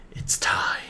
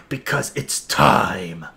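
First: Hushed, whispered countdown moment; dramatic whisper. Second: Low, slow, ominous build-up; dramatic announcement. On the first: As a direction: whisper it with suspense. Hushed echo before playing trailer. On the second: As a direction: draw it out as a grand moment. Dramatic build-up before playing trailer. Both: Acted.

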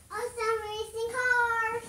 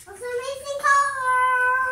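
First: Said in the usual way. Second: Slow, loud, insistent call. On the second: Real, not acted. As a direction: say it louder and slower to be heard. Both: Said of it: "repeats louder".

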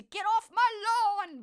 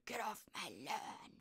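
First: Loud, high, unhinged shout of the line; crazed Clint Eastwood. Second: Quieter, slower low grumble; Clint Eastwood growl. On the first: Impressing Clint Eastwood's line for viewers, loud and crazed. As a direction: yell it like a madman. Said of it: "why am I making him sound crazy". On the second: Correcting her Clint Eastwood impression for viewers, slow low growl. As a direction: mutter it like a grumpy old man. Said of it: "Okay, it's more like". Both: Retold or imitated.

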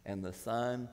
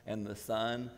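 Both takes have the same delivery.

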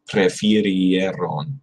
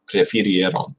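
First: Prefirieron stretched out slowly, every sound kept; slow careful pronunciation. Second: Said in the usual way. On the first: Shown as a demonstration. Learner guarding against bad pronunciation, Prefirieron slow and careful. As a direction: say Prefirieron very slowly, skipping no letters. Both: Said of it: "easy to just sort of skip over some of those letters".

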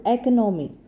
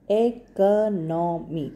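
First: Said in the usual way. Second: "Economy" stretched into four separate beats; slow syllables. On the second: Shown as a demonstration. Teacher giving a four-syllable example, "Economy" said slowly syllable by syllable. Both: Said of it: "When you say slowly".

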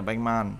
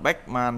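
First: Batman said softly as "baeng-man"; light nasalized pronunciation. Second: Batman said "baek-man", with a hard k stop; heavy unassimilated pronunciation. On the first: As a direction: glide through Batman with a gentle ng. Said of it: "đọc nhẹ là Batman". (đọc nhẹ Batman thành "beng-man") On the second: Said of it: "chứ không phải đọc Batman thì nó nghe hơi nặng". (đọc nặng Batman thành "béc-man") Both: Shown as a demonstration.

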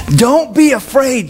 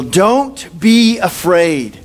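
First: Higher, slowed plea; angel urging. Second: Very slow, drawn-out reassurance; angel comforting. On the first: Angel presses Joseph again, a bit higher and slow. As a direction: lift it a little, pleading. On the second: Angel reassures Joseph, slow and drawn out. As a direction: stretch each word gently like a calming angel. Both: Retold or imitated. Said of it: "And then angel".

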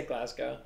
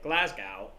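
First: Glasgow ending in a long "oh"; American pronunciation. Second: Low Midwestern Glasgow ending in "gow"; Midwest accent. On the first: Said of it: "how do Americans pronounce that". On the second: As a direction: put on a Midwest American accent. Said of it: "like, the Midwest, you might go". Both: Shown as a demonstration.

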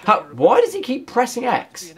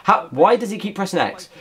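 First: Does pushed up higher in disbelief; incredulous repeat with does stressed. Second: Said in the usual way. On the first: Real, not acted. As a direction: lean on does, the pitch up, as if it makes no sense. Repeats the question more incredulously.

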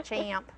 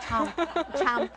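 First: "champ" with a broad, drawn-out flat A; Southern-style "champ", long vowel as in "cat"; own Southern pronunciation. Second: "champ" copied with a short "chump"-like vowel; trying out "champ" the Irish way; imitated Irish pronunciation. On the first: Shown as a demonstration. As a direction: stretch "champ" into a Southern "chaa-amp". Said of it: "the way I said it". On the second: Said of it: "you say it so pretty, say it".

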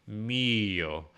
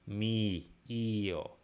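First: "Mio" with a tall, rounded ee; north-south ee. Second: "Mi, io" with the ee spread wide sideways; east-west ee. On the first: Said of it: "more north-south". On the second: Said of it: "east-west". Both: Shown as a demonstration.

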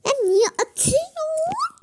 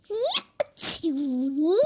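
First: Higher, louder protest with a rising "atıyorsun"; indignant protest. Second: Said in the usual way. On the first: Pretend. Sister protesting a throw, high indignant squeal. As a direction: squeal at the unfairness.

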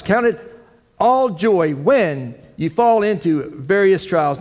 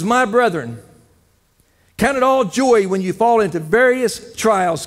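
First: Slowly, leaning on "all"; slow emphatic repeat. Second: Scripture reading. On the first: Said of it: "repeats the verse slowly". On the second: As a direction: read the scripture aloud, proclaiming it. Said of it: "It says". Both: Real, not acted.

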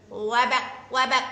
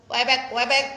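First: Croaking frog voice, louder; mock frog croak. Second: Louder croaking frog; mock frog reply. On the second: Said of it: "jawab tadi".

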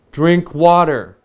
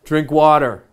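First: "Drink water" slow, both words pressed hard; slow, emphatic. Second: Said in the usual way. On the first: Shown as a demonstration. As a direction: spell out "Drink water" slowly and firmly. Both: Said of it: "I mean it".

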